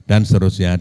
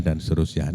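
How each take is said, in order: First: Said in the usual way. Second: Softer, lower repeat of dan seterusnya; trailing off. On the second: Shown as a demonstration. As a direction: let the repeated words fade away.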